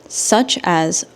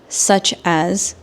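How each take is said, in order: No difference in how they are said.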